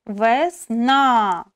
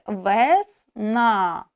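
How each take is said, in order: First: Teacher showing stress in Весна; stress on last syllable. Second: Slow demo word. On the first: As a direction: land the weight on the last а of Весна. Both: Shown as a demonstration. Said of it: "останній голосний вимовляється з найбільшою силою голосу".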